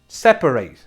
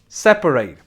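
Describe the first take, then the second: First: It is pronounced as the verb form. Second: It is pronounced as the verb form.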